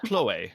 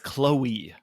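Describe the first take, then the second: First: The name is pronounced the French way. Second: The name is pronounced the English way. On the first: "not Chloe" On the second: "her name is Chloe"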